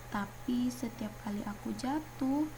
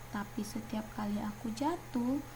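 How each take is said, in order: Both takes have the same delivery.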